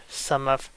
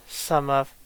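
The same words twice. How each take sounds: The two takes are said the same way.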